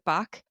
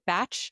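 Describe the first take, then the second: First: The name ends with a 'k' sound. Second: The name ends with a 'ch' sound. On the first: "heard people pronounce it Bach" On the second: "I've heard people pronounce it Batch"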